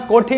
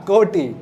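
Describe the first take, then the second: First: कोटि mispronounced, the way to avoid; wrong pronunciation. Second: कोटि said carefully as the correct term; corrected pronunciation. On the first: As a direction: say कोटि the mistaken way, as a warning. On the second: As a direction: model कोटि as the word to use. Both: Shown as a demonstration. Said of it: "कोटि मत बोलना".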